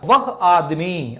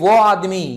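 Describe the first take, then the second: First: The first word is 'vah' with a clear h. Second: The first word is reduced to a plain 'o'. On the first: The speaker calls it right. "General గా అయితే అది అదేంటది వహ్ వహ్ యహ్ ఇలా మాట్లాడాలన్నమాట" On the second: The speaker calls it wrong. "దీన్నే వహ్నే ఓ అనేస్తారు simple గా"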